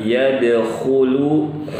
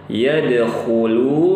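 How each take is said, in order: No difference in how they are said.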